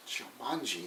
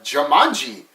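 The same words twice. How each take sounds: First: Barely voiced, very soft and low; hushed. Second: Said in the usual way. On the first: Robin Williams's character reading the dice, hushed awe. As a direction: breathe the name Jumanji almost silent. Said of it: "and he's like". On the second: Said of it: "And he's like".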